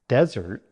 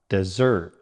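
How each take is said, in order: First: The stress is on the first syllable. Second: The stress is on the second syllable. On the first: It names a dry, sandy place. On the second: It means to abandon someone. "Stress on the second syllable"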